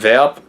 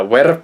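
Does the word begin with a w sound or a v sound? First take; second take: v sound; w sound. First: The word begins with a v sound. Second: The word begins with a w sound. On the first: This is the more recent pronunciation. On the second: This is an older pronunciation.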